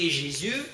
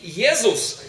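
First: The name is pronounced the French way. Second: The name is pronounced the German way. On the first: "по-французски Jésus" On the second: "по-немецки Jesus"

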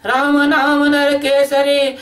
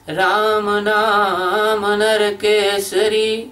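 First: The phrase is recited quickly and briskly. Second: The phrase is recited at a moderate pace. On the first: "तेजी से बोलते, जल्दी बोलते हैं" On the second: "मध्य में कैसे बोलते हैं"

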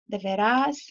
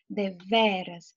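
First: The stress falls on the last syllable. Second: The stress falls on the middle syllable. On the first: It is a verb form in another tense. The speaker calls it wrong. "dizendo assim" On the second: It is the word meaning 'truly'. The speaker calls it right. "Veja que a sílaba tônica é o ve"

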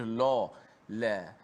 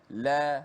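First: The l sound is thick and heavy. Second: The l sound is thin and light. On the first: The speaker calls it wrong. "tidak boleh la" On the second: The speaker calls it right. "la nipis"

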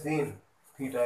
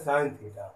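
First: The first word sounds like 'seen'. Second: The first word sounds like 'sign'. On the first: The speaker calls it wrong. "बहुत से लोग बोलते हैं सीन theta, ये गलत है" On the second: The speaker calls it right. "क्या बोलेंगे साइन थीटा"

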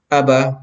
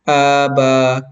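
First: The vowels are said short. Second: The vowels are said long. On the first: The speaker calls it right. "kailangan basahin natin ito ng maikling katinig lang" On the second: The speaker calls it wrong. "hindi na tama. Kasi nga, naging mahaba na yung alif at yung ba"

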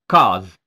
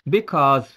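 First: The word is said with the first syllable dropped. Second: The word is said with both syllables.

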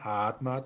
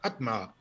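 First: The name is said softly, in an Austrian way. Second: The name is said crisply, stressed at the front. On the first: This is how the name's owner says it. The speaker calls it right. "österreichisch" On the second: This is how someone else always says it. The speaker calls it wrong. "er sagt immer Hadmar"

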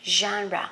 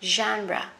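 No difference in how they are said.

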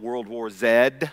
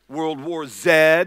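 First: The letter is said the British way, zed. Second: The letter is said the American way, zee.

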